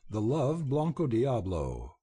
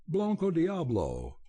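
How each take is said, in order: First: Said in the usual way. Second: A husky, higher cry of recognition. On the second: A narrator's reading. Belding recognising his lost horse, in a husky cry. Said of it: "he cried huskily".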